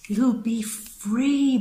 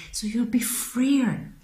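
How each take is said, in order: First: Free stretched long and high; lingering dreamy free; drawn-out sing-song. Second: Said in the usual way. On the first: Real, not acted. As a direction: savour the word free, slow and lifted. Repeats freer, drawn out high.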